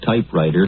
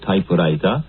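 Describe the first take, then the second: First: It is said with an English pronunciation. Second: It is said with a Japanese kana pronunciation.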